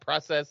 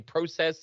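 First: The first syllable sounds like 'pra'. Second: The first syllable sounds like 'pro'. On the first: "and not process" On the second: "you say process"

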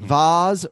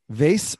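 First: The vowel sounds like the one in spas. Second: The vowel sounds like the one in space. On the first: "Vase rhymes with spas" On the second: "Vase rhymes with space"

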